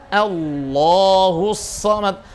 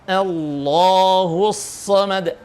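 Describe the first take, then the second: Both takes have the same delivery.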